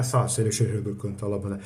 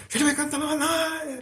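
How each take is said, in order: First: Said in the usual way. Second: High-pitched, sustained tongues chant; Pentecostal tongues intonation. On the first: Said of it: "aprender até a entonação da voz". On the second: Shown as a demonstration. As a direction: imitate a fervent speaker in tongues, pitched way up. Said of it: "até a entonação da voz". (imitação aguda da entonação de quem fala em línguas)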